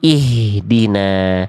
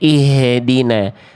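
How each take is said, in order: First: The h is closed with no added vowel. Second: An extra vowel sound follows the h. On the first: The speaker calls it right. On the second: The speaker calls it wrong. "jangan sampai ada suara tambahan ketika melafalkan ha besar sukunnya"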